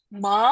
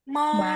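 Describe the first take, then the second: First: It is said with the rising second tone. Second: It is said with the Mandarin first tone. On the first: "nah ini tuh harus naik" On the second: "nada ke satu itu lafalnya gini"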